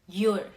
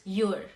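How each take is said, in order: Both takes have the same delivery.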